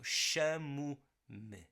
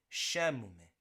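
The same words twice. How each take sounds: First: Very slow "chamo-me" with a soft M and faint e; soft M, slow demo. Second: "chamo-me" at normal pace, soft M, faint final e; soft M demo. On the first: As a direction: spell "chamo-me" out slowly for learners. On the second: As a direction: repeat "chamo-me" naturally after the slow model. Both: Shown as a demonstration. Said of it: "softens that M even more".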